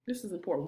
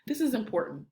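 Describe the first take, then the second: First: Dropped lower and softer; softer before bringing the fire; voice getting low. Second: Said in the usual way. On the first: Shown as a demonstration. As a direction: pull them in with a softer, lower voice. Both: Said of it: "You see how my voice is getting low?".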